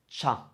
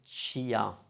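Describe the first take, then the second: First: No i sound is heard before the a. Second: An i sound is heard before the a. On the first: The speaker calls it right. "It sounds cha" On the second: The speaker calls it wrong. "It doesn't sound chia"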